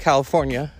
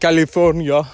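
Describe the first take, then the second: First: It is said in the speaker's ordinary accent. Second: It is said in an imitated Austrian-style accent.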